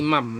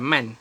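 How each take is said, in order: First: The word ends with an m sound. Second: The word ends with an n sound. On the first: The speaker calls it right. "Ma jadi mam" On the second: The speaker calls it wrong. "bukan man"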